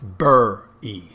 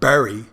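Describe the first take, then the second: First: It is said in a Philadelphia accent. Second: It is said in a standard accent. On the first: "it's bur-e" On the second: "it's not bury"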